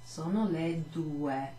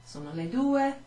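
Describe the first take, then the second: First: Slow clear "sono le due"; slow Italian teacher model; slow model phrase. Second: Said in the usual way. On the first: Shown as a demonstration. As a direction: say "sono le due" slowly for the class.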